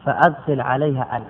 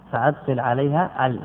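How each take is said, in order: Both takes have the same delivery.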